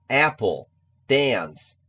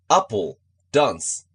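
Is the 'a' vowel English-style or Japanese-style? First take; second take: English-style; Japanese-style. First: The 'a' is an English short 'a' vowel. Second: The 'a' is a flat Japanese 'a' vowel. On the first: The speaker calls it right. "A はair だからapple, dance です" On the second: The speaker calls it wrong. "英語のA はあじゃないですからね"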